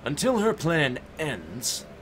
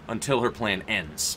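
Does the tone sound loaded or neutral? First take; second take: loaded; neutral. First: The tone is loaded and suggestive. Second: The tone is plain and neutral. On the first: It implies something other than intended. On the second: It simply states how long the wait lasts.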